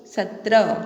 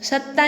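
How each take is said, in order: First: Said in the usual way. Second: सत्ता said as a mistaken reading, double t with no र; wrong number name. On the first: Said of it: "क्या बोलते हैं बच्चों". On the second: Shown as a demonstration. Teacher shows children the wrong reading सत्ता. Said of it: "सत्ता नहीं बोलते".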